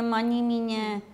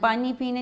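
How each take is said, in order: First: Both words begin with an m sound. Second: Both words begin with a p sound. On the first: The speaker calls it wrong. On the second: The speaker calls it right.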